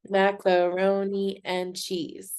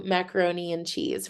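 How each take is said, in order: First: Macaroni and cheese slowly, in six even beats; syllable by syllable. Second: Said in the usual way. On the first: Shown as a demonstration. Teacher clapping out lunch words, Macaroni and cheese syllable by syllable. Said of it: "clapping out the syllables". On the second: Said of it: "let's do macaroni and cheese".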